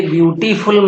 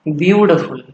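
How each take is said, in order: First: ब्यूटीफुल said with all four syllables, byoo-tee-phul, a full vowel on टी; ब्यूटीफुल with the टी vowel sounded out, the way not to say it; wrong pronunciation. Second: ब्यूटीफुल said as byoot-phul, no vowel after ट; ब्यूटीफुल with ट cut short and straight into फुल; correct pronunciation. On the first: Teacher shows students the wrong way, ब्यूटीफुल with the टी vowel spoken. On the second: Teacher gives students the right way, ब्यूटीफुल with ट clipped and no vowel after it. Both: Shown as a demonstration. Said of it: "ये ब्यूटीफुल मत बोलिएगा".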